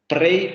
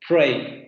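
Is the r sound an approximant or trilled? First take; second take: trilled; approximant. First: The r is a rolled, trilled sound. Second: The r is a smooth, untrilled approximant. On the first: Nobody in the standard accents says it this way. The speaker calls it wrong. "Nadie pronuncia eh, pray" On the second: This is the usual standard sound. The speaker calls it right. "ese sonido sería este"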